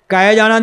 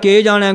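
First: The first word has the vowel 'ai'. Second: The first word has the vowel 'e'. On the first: The speaker calls it right. "ਦਲਾਵਾਂ ਲਾਓ" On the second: The speaker calls it wrong. "ਗਲਤ ਪੜ੍ਹੀ ਗਈ, ਅਸ਼ੁੱਧ ਪਾਠ ਹੋ ਗਿਆ"

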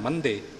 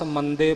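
First: The middle consonant is a forceful, heavy dh. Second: The middle consonant is a light, plain d. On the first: The word means in the middle. The speaker calls it right. "ਜ਼ੋਰ ਦੇ ਨਾਲ ਕੱਸ ਕੇ ਉਚਾਰਨ ਕਰਨਾ ਹੈ" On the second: The word takes on a different meaning. The speaker calls it wrong. "ਜੇ ਆਪਾਂ ਇੱਥੇ ਅਗਿਆਨਤਾ ਵਸ ਮੰਦੇ ਬੋਲ ਜਾਈਏ ਤਾਂ ਉਸ ਦਾ ਅਰਥ ਬਦਲ ਜਾਵੇਗਾ"

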